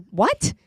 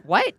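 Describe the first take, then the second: First: Retold disbelief; stunned what. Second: Retold disbelief again; stunned what. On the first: Telling the voter her reaction, a mild stunned what. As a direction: ask it in disbelief. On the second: Retelling her reply to the voter, mildly stunned. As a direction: repeat the baffled what. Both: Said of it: "that's how I responded".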